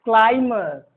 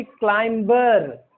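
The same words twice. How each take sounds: First: "क्लाइमर" as klai-muh; no b in the middle of "क्लाइमर"; silent B. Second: "क्लाइंबर" with b and r sounded; slow klaim-bar for "क्लाइंबर"; wrong pronunciation. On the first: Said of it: "middle में भी उच्चारण इसका जो है सो silent होगा". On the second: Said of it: "गलत है". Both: Shown as a demonstration.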